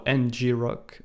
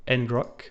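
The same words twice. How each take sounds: First: "N G rock" with N and G as separate letters; initials spelled out. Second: "Ngrok" said as one word, en-grok; read as one word. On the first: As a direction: say en, jee, then rock for "N G rock". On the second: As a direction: run the N straight into grok in "Ngrok". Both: Shown as a demonstration. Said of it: "you pronounce it the way you want to".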